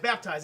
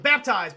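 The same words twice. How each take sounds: First: Said in the usual way. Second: Found word. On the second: Real, not acted. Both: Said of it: "That's it".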